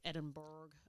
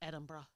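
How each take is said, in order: First: The name is said as its spelling suggests. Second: The name is said in its usual spoken form. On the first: The speaker calls it wrong. "it just looks like it should be like Edinburgh" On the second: The speaker calls it right. "It's meant to be said like it's like Edinburgh"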